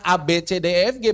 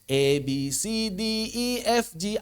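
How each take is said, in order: First: The letter names sound Indonesian. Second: The letter names sound English. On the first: The speaker calls it wrong. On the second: The speaker calls it right.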